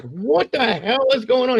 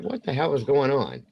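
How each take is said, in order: First: High-pitched, re-enacted alarm; alarmed outburst. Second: Mildly baffled, slightly raised pitch; retold puzzlement. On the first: Dad sees his son's swollen head, alarmed outburst. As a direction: blurt it out high, in mock horror. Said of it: "I scared him when I did". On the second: Dad asks about her bugged-out eyes, mild puzzlement. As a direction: ask it puzzled, without shouting.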